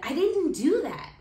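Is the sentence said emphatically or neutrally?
emphatically. Strong emphasis falls on "didn't do that".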